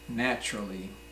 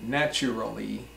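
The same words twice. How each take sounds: First: The 'a' before the final 'lly' is dropped. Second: The 'a' before the final 'lly' is pronounced as a full syllable. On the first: The speaker calls it right. "we say naturally" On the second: The speaker calls it wrong. "We don't say naturally"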